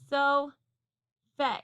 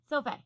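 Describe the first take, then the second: First: The two syllables are said apart, both vowels full. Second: The syllables run together, second vowel reduced. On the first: "If we broke this word apart and decoded it, the syllables might say so, fe by themselves" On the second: "if you blend those syllables fast together"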